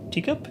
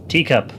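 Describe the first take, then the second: First: "Teacup" high and softer, as a question; questioning rise. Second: "Teacup" said firmly with a falling tune; falling statement. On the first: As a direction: query "Teacup" with a high, rising tune. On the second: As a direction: state "Teacup" as a finished name. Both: Shown as a demonstration. Trying out own gaming nickname.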